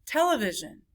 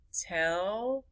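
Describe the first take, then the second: First: Said in the usual way. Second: Television split into tel, e, vi, sion; four separate beats in Television, gaps between; syllable by syllable. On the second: Shown as a demonstration. Teacher counting syllables, Television broken up. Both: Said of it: "many syllables it is".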